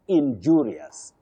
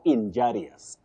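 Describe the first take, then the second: First: The second syllable sounds like 'ju'. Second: The second syllable sounds like 'ja'. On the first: The speaker calls it right. "you say ju" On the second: The speaker calls it wrong. "you now don't say ja"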